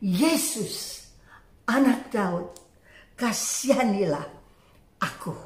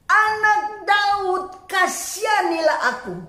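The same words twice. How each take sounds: First: Low, soft, halting cry for mercy; hushed retold plea, fading at the end; subdued plea. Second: High, long-drawn calling plea; retold beggar calling out, pitch raised; insistent cry. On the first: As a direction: plead quietly, pausing between phrases. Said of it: "Dan Dia mulai berseru". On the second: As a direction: cry out for mercy, stretching the words. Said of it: "namun semakin keras ia berseru".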